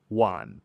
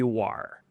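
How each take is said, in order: First: The word ends without an r-sound. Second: The word ends with an r-sound. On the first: It sounds like the local Shanghai speech. "The pinyin ... it's W A N" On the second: It marks the speaker as an outsider in Shanghai. "if you want the northern accent or the standard, you're going to add an R on the end"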